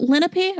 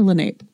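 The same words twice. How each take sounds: First: "Lenape" said as LEN-uh-pee; "Lenape" in three syllables, short "uh" in the middle; three-syllable pronunciation. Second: "Lenape" said as luh-NAPE; "Lenape" ending in a long-a "nape", final e silent; two-syllable pronunciation. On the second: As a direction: say "Lenape" to rhyme with "grape". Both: Shown as a demonstration. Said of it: "is it Lenape or Lenape?".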